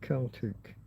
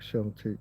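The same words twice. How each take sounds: First: The word begins with a hard K sound. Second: The word begins with a soft S sound. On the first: It refers to ancient peoples' history, languages and culture. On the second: It refers to a sports team.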